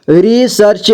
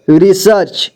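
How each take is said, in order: First: रिसर्च as रि-सर्-च; syllable by syllable. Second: Said in the usual way. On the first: Shown as a demonstration. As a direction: sound out रिसर्च in parts. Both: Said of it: "एक ही बार में पढ़ेंगे".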